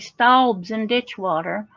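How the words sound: It is said in a broad, regional pronunciation.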